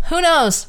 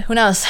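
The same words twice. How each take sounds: First: Mock who knows. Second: Said in the usual way. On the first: Shown as a demonstration. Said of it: "repeated higher". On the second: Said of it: "repeated with a twist".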